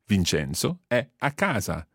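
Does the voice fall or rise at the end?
fall. The voice falls at the end. It states that Vincenzo is at home. "So it's like a statement"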